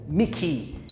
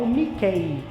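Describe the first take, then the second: First: The name ends with an 'ee' vowel sound. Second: The name ends with an 'eh' vowel sound. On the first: The speaker calls it right. "na verdade é o Mickey" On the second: The speaker calls it wrong. "a gente aprende a falar dessa forma"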